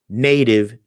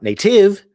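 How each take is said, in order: First: The stress is on the first syllable. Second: The stress is on the second syllable. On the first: The speaker calls it right. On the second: The speaker calls it wrong.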